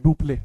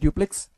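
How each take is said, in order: First: The name is said the Hindi way. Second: The name is said the English way. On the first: "Hindi में बोलते हैं" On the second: "English में बोलते हैं"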